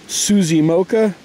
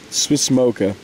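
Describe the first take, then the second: First: The first word is said with two syllables. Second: The first word is said with one syllable. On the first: The speaker calls it wrong. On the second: The speaker calls it right.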